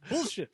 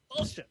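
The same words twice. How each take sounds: First: It is said weakly, without conviction. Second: It is said forcefully, with conviction. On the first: The speaker calls it wrong. "You're not saying it with conviction" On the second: The speaker calls it right. "That's better"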